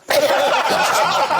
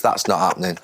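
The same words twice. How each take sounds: First: Much higher, laughing through it; high laughing squeak. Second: Said in the usual way. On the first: Acted. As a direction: squeak it out, cracking up. Repeat of the advert line.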